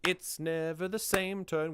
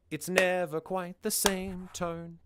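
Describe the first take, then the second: First: Higher, chanted "It's never the same tone" led by IT'S; front-load "It's never the same tone" on the beat; original song stress. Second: Slow, higher chant of "It's never quite the same tone", NEVER stressed; changed syllable emphasis. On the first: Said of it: "So instead of". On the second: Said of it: "changed the way that the syllable emphasis works". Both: Shown as a demonstration.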